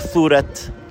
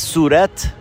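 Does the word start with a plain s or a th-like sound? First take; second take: th-like; plain s. First: The first sound is a th-like tongue-tip sound. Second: The first sound is a plain s. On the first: This is how locals say it. "ما میگیم صورت" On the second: This is how outsiders say it. "شما میگه صورت"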